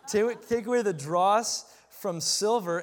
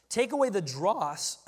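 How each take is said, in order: First: Said in the usual way. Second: Voice cracking. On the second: Real, not acted. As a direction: voice cracks on a word. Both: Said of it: "hear my voice crack just then".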